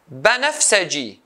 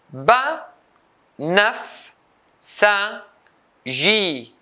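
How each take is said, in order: First: Said in the usual way. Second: "banafsaji" as ba, naf, sa, ji with pauses; four isolated beats for "banafsaji", high start; syllable by syllable. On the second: Shown as a demonstration. Teacher cutting the word into four, syllable by syllable. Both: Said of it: "four syllables".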